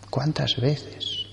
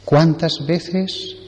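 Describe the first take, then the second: First: Slow, much softer repeat; a soft, drawn-out ¿Cuántas veces? like an afterthought; quiet echo. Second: Drawn-out, emphatic question; a slow rising ¿Cuántas veces, weighing every word; slow rhetorical question. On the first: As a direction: drop right down and let ¿Cuántas veces? linger. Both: Shown as a demonstration.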